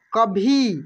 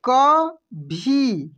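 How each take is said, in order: First: Said in the usual way. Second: कभी stretched very slowly, syllable by syllable; drawn out. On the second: Shown as a demonstration. (कभी को धीरे धीरे बोलिए) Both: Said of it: "कैसे पढ़ेंगे हम लोग?".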